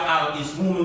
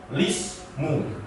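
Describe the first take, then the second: First: It begins with a vowel before the L. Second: It begins directly with the L sound. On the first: This is the word read on its own. "Yang semula al-ismu" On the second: This is the word joined to the word before it. "menjadi lismu"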